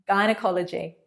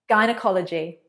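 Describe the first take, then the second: The two takes are said the same way.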